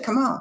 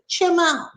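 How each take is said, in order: First: Come starts with a plain k sound. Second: Come starts with a ch sound. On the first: "you don't say come on" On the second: "He said, chim on"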